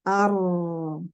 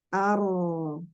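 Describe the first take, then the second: No difference in how they are said.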